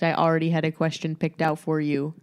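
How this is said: The voice is flat and monotone.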